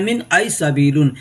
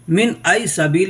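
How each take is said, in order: First: The last word ends with an added -un syllable. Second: The last word ends without an -un syllable. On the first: This is the full written form. "लिखने के लिए वैसे लिखा हुआ है मिन आई सबीलुन" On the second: This is how it is said in speech. "लेकिन मिन आई सबील हम कहेंगे।"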